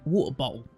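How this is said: It is said in an imitated London accent. "like a Londoner"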